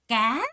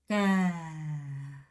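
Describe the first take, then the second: First: The pitch rises throughout. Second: The pitch falls throughout. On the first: A fish. "두 번째 까 하고 올라갔죠" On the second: A fruit from a vine plant, like eggplant. "하고 내려가는 겁니다"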